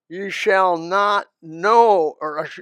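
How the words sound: The negative is read with strong emphasis.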